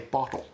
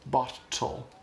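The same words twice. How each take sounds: First: The middle t is softened into a quick tap. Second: The middle t is a full hard stop. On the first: The speaker calls it right. "They'll say" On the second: The speaker calls it wrong. "won't say, like"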